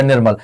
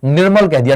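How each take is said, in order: First: Nirmal said alone, lower, with a firm falling close; Nirmal spelled out for the class, pitched down and final; word clearly set apart. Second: Said in the usual way. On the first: Shown as a demonstration. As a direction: isolate Nirmal and drop it low to finish. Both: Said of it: "मैंने कह दिया दोस्त क्या".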